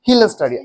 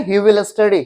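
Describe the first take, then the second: First: 'He will' is contracted into one syllable. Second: The word 'will' is said in full. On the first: The speaker calls it right. "अब ही विल के जगह पे हम क्या करेंगे, हिल लगा देंगे" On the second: The speaker calls it wrong. "आज से आप लोग ऐसे नहीं कहेंगे कि ही विल स्टडी"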